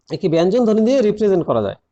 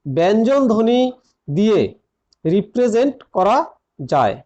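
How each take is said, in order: First: Said in the usual way. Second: Word by word, with long pauses; dictation pace. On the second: Real, not acted. Teacher dictating a grammar point to students, phrase by phrase. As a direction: dictate it in small separate chunks.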